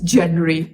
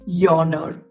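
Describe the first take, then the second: First: The first syllable sounds like 'jen'. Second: The first syllable sounds like 'yawn'. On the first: The speaker calls it wrong. "if you just go about it literally, you will say it is genre" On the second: The speaker calls it right. "it's yawner. So yawn as it when we are feeling sleepy"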